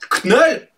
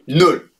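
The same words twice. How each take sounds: First: The initial K is sounded before the vowel. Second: It is said like the English word null. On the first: The speaker calls it wrong. "Ça ne se prononce pas Knull, pas comme une saucisse Knacky" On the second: The speaker calls it right. "On dit Knull"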